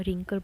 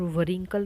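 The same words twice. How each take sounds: First: Said in the usual way. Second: "वरिंकल" with a w before the r, va-rinkal; W sounded. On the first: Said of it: "रिंकल बोल रहे हैं". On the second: Shown as a demonstration. Teacher showing the wrong wrinkle, w sounded in "वरिंकल". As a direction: say "वरिंकल", sounding the silent w first. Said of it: "वरिंकल नहीं बोल रहे हैं".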